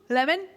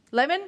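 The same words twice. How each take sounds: The two takes are said the same way.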